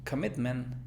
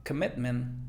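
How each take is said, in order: No difference in how they are said.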